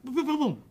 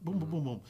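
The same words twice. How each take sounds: First: Loud, high boom boom boom boom; mock gunshots. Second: Said in the usual way. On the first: Guest acting out shooting the suspect, loud mock gunshots. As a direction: fire off the shots with your voice.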